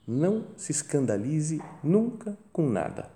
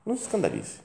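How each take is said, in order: First: Slow, soft counsel leaning on "nunca"; a softly voiced sincere piece of counsel; slow solemn advice. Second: Much higher, softer repeat leaning on "Não"; insistent repeat. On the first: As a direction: lay down the rule gently and slowly, stressing "nunca". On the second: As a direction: repeat the rule, lifting "Não" high. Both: Shown as a demonstration.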